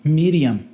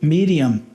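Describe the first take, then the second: Both takes have the same delivery.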